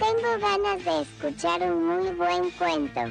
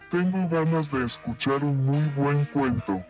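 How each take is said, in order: First: It is said in an alien voice. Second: It is said in a monster voice.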